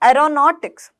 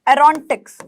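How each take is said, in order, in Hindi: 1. बीच के अक्षर में पूरा 'aw' स्वर है। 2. बीच का अक्षर कटा हुआ और छोटा है। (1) "एरोनॉटिक्स कैसे बोलेंगे" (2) "एरोनटिक्स बोलेंगे नहीं"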